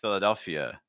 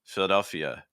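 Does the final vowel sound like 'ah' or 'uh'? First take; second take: uh; uh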